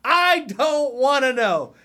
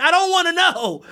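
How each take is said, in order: First: Slow, high, drawn-out I don't wanna know; weary plea. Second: High, loud I don't wanna know; exasperated. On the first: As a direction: plead to be spared more. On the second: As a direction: blurt it out fed up. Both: Real, not acted. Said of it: "exasperated declaration".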